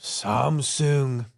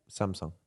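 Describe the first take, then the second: First: Samsung with sung rhyming with song; Japanese accent. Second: Samsung ending in a soft sung like song; Samsung, last syllable sung as song; Korean pronunciation. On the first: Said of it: "It sounded like you did". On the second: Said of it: "Say the last bit?". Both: Shown as a demonstration.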